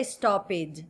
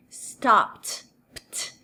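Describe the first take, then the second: First: "stopped" said as stop-id, an extra syllable; wrong pronunciation. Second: "Stopped" said as one syllable, P going straight into T; right pronunciation. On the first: Teacher showing the error to avoid: stop-id, two syllables. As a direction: add the wrong ID ending, slowly. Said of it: "Don't say stopped, no". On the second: Teacher modelling the correct ending: stopt, P straight into T. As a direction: close the word with a clipped pt. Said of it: "Do P já pula pro som do T". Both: Shown as a demonstration.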